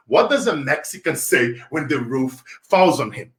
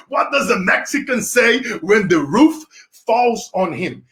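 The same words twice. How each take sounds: First: Said in the usual way. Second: Slow riddle. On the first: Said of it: "back to my question". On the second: Shown as a demonstration. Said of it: "Whoever can guess that one".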